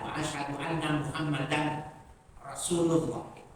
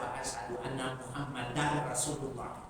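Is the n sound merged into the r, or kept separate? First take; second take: separate; merged. First: The n is kept, with a break before the r. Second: The n merges into a doubled r sound. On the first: "dibacanya waqaf" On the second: "harus dibaca dengan idgham, ya, dengan syiddah"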